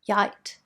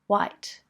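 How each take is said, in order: First: The word begins with a y sound. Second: The word begins with a w sound. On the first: "make a y or w sound instead" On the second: "make a y or w sound instead"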